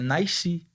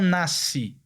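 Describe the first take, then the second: First: The first vowel glides into an extra i-sound. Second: The first vowel is a plain single vowel. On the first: The speaker calls it right. "é" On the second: The speaker calls it wrong. "Eles não falam"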